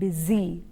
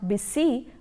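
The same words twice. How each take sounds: First: The middle consonant is a buzzing z sound. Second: The middle consonant is a hissing s sound. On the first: The speaker calls it right. "but it is busy, z" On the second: The speaker calls it wrong. "it is not busy"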